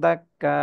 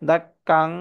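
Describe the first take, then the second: First: The word ends with a long drawn a. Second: The word ends with an n sound. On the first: The reader stops on this word. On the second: The reading continues without stopping.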